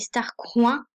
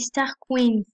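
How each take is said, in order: First: The second part is said like 'coins'. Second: The second part is said like 'queens'. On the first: The speaker calls it wrong. "ça ne se dit pas comme ça" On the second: The speaker calls it right. "ça se dit les Star Queens"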